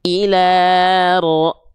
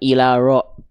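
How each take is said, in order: First: The r is trilled with one or two vibrations. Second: The r has no trill, it is blurred. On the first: The speaker calls it right. "getarannya mungkin hanya satu dua getaran saja sedikit" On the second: The speaker calls it wrong. "disamarkan ilaro, nggak"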